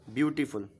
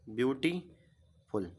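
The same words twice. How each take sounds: First: Said in the usual way. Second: "ब्यूटीफुल" very slow, with a long gap before the last syllable. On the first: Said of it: "तीन से ज़्यादा सिलेबस हो". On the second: Shown as a demonstration. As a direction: stretch "ब्यूटीफुल" out and break it into its syllables. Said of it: "तो पहले क्या बोलेंगे". ("ब्यूटीफुल" बहुत धीरे, हिस्सों में तोड़कर)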